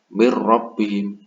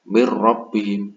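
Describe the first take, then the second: First: The n merges fully into the following r. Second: The same.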